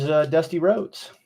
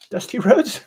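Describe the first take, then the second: First: Said in the usual way. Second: A quick high, mock wrestler's voice on the name; Dusty Rhodes voice. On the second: Sculptor mocking the wrestler's own voice, high and put-on. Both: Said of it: "He sounded like Divine".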